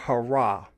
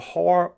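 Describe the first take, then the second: First: The word ends with an added final vowel syllable. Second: The word ends without a final vowel syllable. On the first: "but it could be hurrah" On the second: "I just cut it off and said har"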